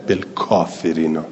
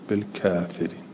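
First: The long vowel after k stays an open a. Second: The long vowel after k is tilted toward e. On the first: "نه" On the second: "کسائی هم همینطور اماله کرده"

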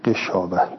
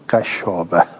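First: The first syllable has the vowel i. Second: The first syllable has the vowel a. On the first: This is the widely known reading. "به کسر الغین" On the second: This is a reading used by some reciters. "به فتح الغین"

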